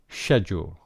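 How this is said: It is said with a British accent.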